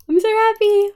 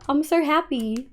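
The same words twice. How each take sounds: First: High, loud squeal of joy; voicing the mob grinder, thrilled; squeaky happy mob. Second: Said in the usual way. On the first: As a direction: squeal it like a delighted little mob.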